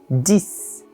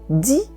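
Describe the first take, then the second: First: The word ends with an S sound. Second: The word ends without an S sound. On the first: "esse X é pronunciado como um S" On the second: "esse X para de ser pronunciado"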